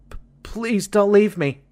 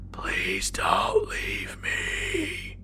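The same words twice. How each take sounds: First: Put-on much higher, small scared little-boy squeak; frightened squeak. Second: Very slow, soft, lower whisper, barely able to speak; terrified whisper. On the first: Small boy begging the man not to leave, scared squeak. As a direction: squeak it out like a terrified child. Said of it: "I heard myself squeak out". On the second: Boy pleading with the armed thing, faint whisper. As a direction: force it out in a frozen, scared whisper. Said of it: "I tried to mutter out a cry for help". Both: A narrator's reading.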